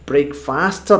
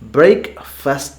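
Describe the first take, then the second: First: The second syllable has a full 'fast' vowel. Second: The second syllable has a reduced 'fust' vowel. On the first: The speaker calls it wrong. "ബ്രേക്ക്ഫാസ്റ്റ് എന്നല്ല പറയുന്നത്" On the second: The speaker calls it right. "ബ്രേക്ക് ഫസ്റ്റ് എന്നാണ് പറയുന്നത്"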